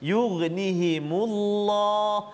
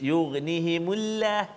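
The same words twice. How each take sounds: First: The L in Allah is heavy and thick. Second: The L in Allah is light and thin. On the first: The speaker calls it right. "tebal lam tu" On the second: The speaker calls it wrong. "tak boleh baca nipis"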